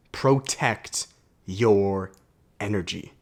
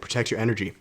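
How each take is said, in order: First: Protect your energy drawn out very slowly; slow emphasis. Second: Said in the usual way. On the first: Shown as a demonstration. Key message of the video.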